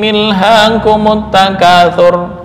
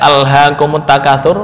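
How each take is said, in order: First: The first word begins with an 'i' vowel. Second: The first word begins with an 'a' vowel. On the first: The speaker calls it wrong. "akhirnya menyimpang dari makna yang ditentukan" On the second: The speaker calls it right. "hamzah kotok tetap terbaca ya"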